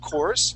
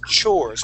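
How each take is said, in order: First: The word begins with a sound other than ch. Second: The word begins with a ch sound. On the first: The speaker calls it wrong. "you had said uh, uh, chores" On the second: The speaker calls it right. "it's chores with a C H"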